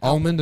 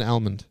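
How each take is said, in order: First: Almond said as "ALL-mund"; Almond with a rounded aw. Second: Almond said as "AL-mund"; almond with the a of cat; almond with short a. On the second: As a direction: say almond starting like the name Al. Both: Shown as a demonstration. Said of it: "Almond and almond".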